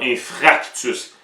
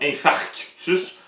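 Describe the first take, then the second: First: The middle syllable sounds like fra. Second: The middle syllable sounds like far. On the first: The speaker calls it wrong. "Tu vas souvent entendre infractus" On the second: The speaker calls it right. "c'est le mot infarctus"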